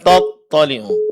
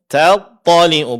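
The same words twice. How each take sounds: First: The t sound is heavy and thick. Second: The t sound is light and thin. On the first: The speaker calls it wrong. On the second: The speaker calls it right. "Huruf ta tetap tipisnya dipertahankan"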